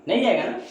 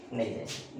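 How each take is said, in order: First: Pitched up, checking question; asking the class. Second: Dropped lower and softer; answering himself. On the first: Teacher quizzing pupils in a raised questioning pitch. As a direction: ask it high to the pupils, waiting for an answer. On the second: Teacher answering his own question, lower and softer. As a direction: answer your own question low and soft. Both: Shown as a demonstration. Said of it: "देखो तो one जाएगा divide?".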